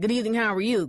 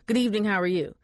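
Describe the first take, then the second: First: The greeting sounds pushy and aggressive. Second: The greeting sounds friendly and casual.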